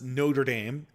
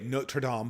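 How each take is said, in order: First: It is pronounced the American way. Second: It is pronounced the French way. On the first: The speaker calls it right. "That's how we say it in America" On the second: The speaker calls it wrong. "I always want to say"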